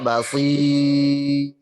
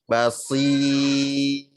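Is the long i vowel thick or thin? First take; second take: thick; thin. First: The long i vowel is thick. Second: The long i vowel is thin. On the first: The speaker calls it wrong. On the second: The speaker calls it right. "i-nya tipis"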